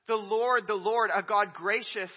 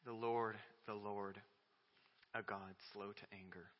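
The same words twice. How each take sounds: First: Loud, rising proclamation; ringing call from the pulpit; proclaimed. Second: Quiet awe over the verse; hushed recitation. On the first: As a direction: announce the Lord's name with force. Preacher proclaiming the divine name. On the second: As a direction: let it fall to a reverent hush. Quiet reverent recitation after pause. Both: Real, not acted.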